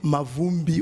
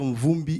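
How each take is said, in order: First: The name has a vowel inserted after M. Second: The name starts with M directly before v. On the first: This is how outsiders mispronounce the name. The speaker calls it wrong. "ils disent ma, Mavumbi" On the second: This is the name's own pronunciation. The speaker calls it right. "pour dire Mvumbi"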